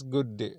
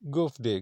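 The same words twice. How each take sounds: First: Said in the usual way. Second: "goof day" with F for the D of good; imitating a foreign tourist's accent. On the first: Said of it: "Goof day means good day". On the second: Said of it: "pronunciation accent".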